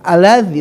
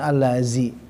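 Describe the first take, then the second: First: The middle consonant is a 'dh' sound, tongue out. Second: The middle consonant is a 'z' sound, tongue in. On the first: The speaker calls it right. "pastikan lidah itu harus keluar" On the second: The speaker calls it wrong. "bukan allazi"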